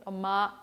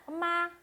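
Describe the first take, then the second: First: 엄마 pitched low; 엄마 dropped to a low note; low call. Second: 엄마 pitched high; 엄마 called out up high. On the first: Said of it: "이렇게 부르든 어쨌든 제가 소리를 이상하게 내긴 냈지만". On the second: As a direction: say 엄마 on a high note. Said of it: "이렇게 부르든". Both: Shown as a demonstration.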